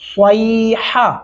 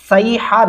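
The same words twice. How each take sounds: First: The first s sound is heavy, lips rounded. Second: The first s sound is light, lips unrounded. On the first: The speaker calls it right. "صیحہ ایسے پڑھنا ہے اس کو" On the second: The speaker calls it wrong. "صیحہ نہیں پڑھتا کیونکہ سواد لکھا ہوا ہے"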